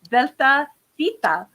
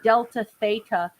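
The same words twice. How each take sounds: First: The name is pronounced in its original manner. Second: The name is pronounced in an English manner. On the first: The speaker calls it right. "the proper way" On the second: The speaker calls it wrong. "I'm going to say it the English way"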